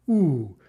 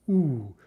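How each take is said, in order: No difference in how they are said.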